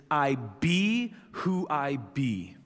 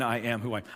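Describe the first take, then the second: First: Slow, weighty declaration of I be who I be; authoritative. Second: Said in the usual way. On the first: Shown as a demonstration. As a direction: proclaim it with divine authority. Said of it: "sounds like so much more authority". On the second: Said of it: "even than".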